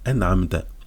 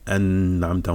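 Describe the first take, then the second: First: The n is nasalized only lightly and briefly. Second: The n is nasalized strongly and held long. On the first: The speaker calls it right. "on a la runna qui est diminuée" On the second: The speaker calls it wrong. "on dit pas ça"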